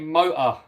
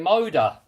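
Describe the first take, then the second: First: It is said in a non-American accent. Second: It is said in an American accent. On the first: "I say motor" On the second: "Americans say motor"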